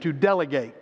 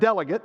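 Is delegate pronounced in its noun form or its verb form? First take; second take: verb; noun. First: It is pronounced the way the verb is. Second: It is pronounced the way the noun is. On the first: To appoint and send someone with a commission. "you probably think of the verb to appoint and send with a commission" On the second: One who is sent for a purpose. "as a noun, we pronounce it delegate"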